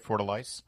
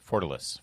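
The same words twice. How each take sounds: First: The last syllable has a long vowel. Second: The last syllable has a short vowel. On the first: The speaker calls it wrong. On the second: The speaker calls it right.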